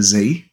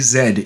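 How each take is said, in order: First: It is said the non-Australian way, as zee. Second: It is said the Australian way, as zed.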